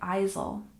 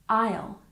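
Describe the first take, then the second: First: An S sound is pronounced in the word. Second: No S sound is pronounced in the word. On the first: The speaker calls it wrong. "We don't say isle, just like the word island. We don't say the S" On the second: The speaker calls it right. "the S is silent"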